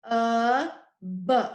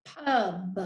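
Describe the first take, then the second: First: "P-U-B" as three separate phonics sounds; "P-U-B" segmented into p, uh, b; sounded out. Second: Said in the usual way. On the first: Shown as a demonstration. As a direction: tap out "P-U-B" sound by sound, with gaps. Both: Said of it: "Let's tap out the first syllable".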